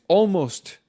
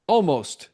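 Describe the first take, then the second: No difference in how they are said.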